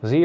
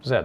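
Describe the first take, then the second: First: "Z" pronounced "zee", the American way. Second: "z" pronounced "zed", with a final d; Dutch-style "z". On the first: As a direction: say "Z" to rhyme with "see". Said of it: "I guess one is for Americans". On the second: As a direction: say "z" to rhyme with "bed". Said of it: "we say z, so I guess I should say". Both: Shown as a demonstration.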